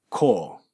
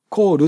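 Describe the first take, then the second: First: The final L is dark and weakly voiced. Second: The final L is clear and fully voiced. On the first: The speaker calls it right. "弱めの音なんですね" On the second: The speaker calls it wrong. "ルっていうふうに言わないで"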